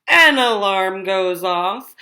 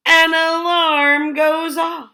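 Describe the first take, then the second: First: Said in the usual way. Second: Slow, weighty "An alarm goes off"; slow dramatic payoff. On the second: Acted. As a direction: drag out "An alarm goes off" for effect. Dramatic punchline of alarm list.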